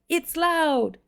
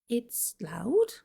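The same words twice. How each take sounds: First: It is shouted loudly. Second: It is said at a normal volume.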